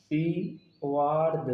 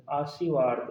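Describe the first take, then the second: First: "आशीर्वाद" very slowly, broken into syllables; slow syllabic reading. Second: Said in the usual way. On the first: Shown as a demonstration. Teacher showing how this spelling would read, "आशीर्वाद" drawn out in parts. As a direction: sound out "आशीर्वाद" piece by piece. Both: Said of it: "जब इसको हम पढ़ेंगे तो क्या पढ़ेंगे?".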